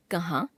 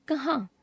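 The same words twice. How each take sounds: First: कहाँ without the nasal ending, rising; wrong pronunciation. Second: Said in the usual way. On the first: Shown as a demonstration. Teacher showing a common error, कहाँ without nasal vowel. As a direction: drop चंद्रबिंदु from कहाँ, end on आ. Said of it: "अशुद्ध". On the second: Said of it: "शुद्ध".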